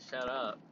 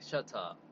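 First: Said in the usual way. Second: "Shut up" in a lightly done British accent. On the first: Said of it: "you can't be like". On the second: Shown as a demonstration. Vlogger demonstrating the right way to say the song title, in a British accent. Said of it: "you gotta say it in, in the accent".

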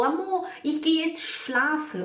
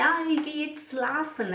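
First: Imite a aluna acertando: schlafen começa “shla”, voz aguda; frase lenta e alta com chiado em schlafen. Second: Imite a aluna: schlafen dito “slafen”, voz aguda; frase lenta e alta com S puro em schlafen; S errado em schlafen. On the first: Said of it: "Aí outro dia ela falou". (schlafen com “x” inicial) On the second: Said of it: "você me falava schlafen". (schlafen com “s” sem chiado) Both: Retold or imitated.

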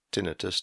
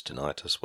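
First: TINNITUS stressed on the first syllable, "TIN-ih-tus"; alternative pronunciation. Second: TINNITUS stressed on the second syllable, "tih-NIGHT-us"; alternative pronunciation. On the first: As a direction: say TINNITUS as TIN-ih-tus, short middle vowel. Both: Shown as a demonstration. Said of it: "tinnitus, whatever".

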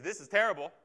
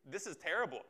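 First: A louder, angry cry of protest; raging. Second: A mild, deflated sigh of despair. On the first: Preacher voicing an angry believer's outcry, louder protest. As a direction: spit it out, hating it. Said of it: "You might rage against it". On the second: Preacher voicing a depressed believer, a touch of despair. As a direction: say it like you've given up. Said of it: "a despairing depression". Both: Retold or imitated.

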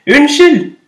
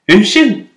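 First: Much higher and louder call. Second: Said in the usual way. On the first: Acted. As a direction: call out to the tree so it hears. (roper høyere og lysere) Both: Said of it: "ropte den lille fuglen litt høyere".

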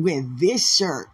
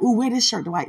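First: Slow deliberate. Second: Excited coaxing. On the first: Shown as a demonstration. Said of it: "No, no". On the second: Pretend.

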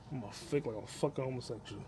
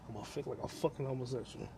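The two takes are said the same way.

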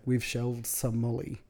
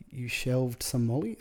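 First: Said in the usual way. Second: Rising question on "Molly"; "Molly" drawn up into a baffled question; puzzled echo question. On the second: Retold or imitated. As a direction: repeat it slowly as a question, lifting "Molly". Echoing the bridesmaid as a question.

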